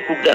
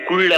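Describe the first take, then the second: First: The L sound is left out of the word. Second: The L sound is pronounced in the word. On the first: The speaker calls it right. "కుడ్ అనాలి. మరి ఎల్ ఎందుకంటే silent letter" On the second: The speaker calls it wrong. "సిఓయుఎల్డి కుళ్ళు అనకూడదు"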